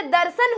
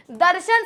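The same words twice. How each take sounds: First: दर्शन said with a plain s sound, as darsan; दर्शन pronounced dar-san, the spoken tadbhav way; teacher models दर्शन with s; everyday pronunciation. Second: दर्शन said with a sh sound, as darshan; दर्शन pronounced dar-shan, the formal way; teacher models दर्शन with sh; Sanskrit pronunciation. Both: Shown as a demonstration. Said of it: "दर्शन से दर्शन हो जाता है".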